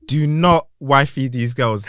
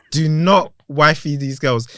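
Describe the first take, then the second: First: Put-on "Do not wifey these girls" slow, stress on "not"; slow emphatic warning. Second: Put-on "Do not wifey these girls" again, slow, "not" stressed; repeated slow warning. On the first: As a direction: hammer "not", slowly. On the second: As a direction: repeat it slowly, punch "not". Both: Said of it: "Let me repeat that".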